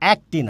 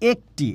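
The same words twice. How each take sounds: First: The first vowel is an open e. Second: The first vowel is a closed e. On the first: The speaker calls it wrong. "এটার উচ্চারণ কিন্তু একটি না, একটি বললে ভুল হবে" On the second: The speaker calls it right. "এটার উচ্চারণ কিন্তু আপনার একটি"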